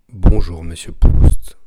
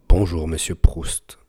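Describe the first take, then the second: First: Loud breath pops are heard on the plosives. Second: Slight breath pops are heard on the plosives. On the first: "Test pop sans bonnette" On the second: "Avec petite bonnette. On entend encore un peu"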